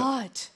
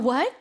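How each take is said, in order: First: It sounds annoyed and impatient. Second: It sounds excited and eager to hear more.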